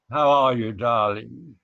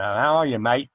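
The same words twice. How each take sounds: First: A hint of a posh British accent; lightly put-on British greeting. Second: A hint of an Australian accent; lightly put-on Aussie greeting. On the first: Asked for a British phrase, mild British accent. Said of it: "what's the most British thing you can say in a British accent". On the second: Trying American but slipping into light Australian accent. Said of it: "But that's Australian".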